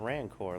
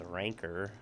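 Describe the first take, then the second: First: The last syllable sounds like 'core'. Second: The last syllable sounds like 'ker'. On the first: The speaker calls it wrong. "my instinct was like, oh, it's a Rancor, like in... Star Wars" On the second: The speaker calls it right. "But it's actually pronounced Ranker"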